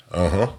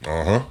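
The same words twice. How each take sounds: The two takes are said the same way.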